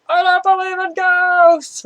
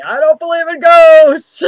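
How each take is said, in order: First: Holding back a shout, half yelled; comically half yell it over your shoulder; whisper-yelled. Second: Said in the usual way. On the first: Retold or imitated.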